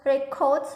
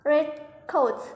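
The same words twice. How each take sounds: First: "red coat" run together as one word; "red coat" in one unit, no gap; compound-noun stress. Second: "red coat" as two separate words, each stressed; "red", slight pause, then a full "coat"; adjective-plus-noun stress. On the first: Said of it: "Compound nouns". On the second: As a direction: split "red coat", a short gap before "coat". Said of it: "Adjective plus nouns". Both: Shown as a demonstration.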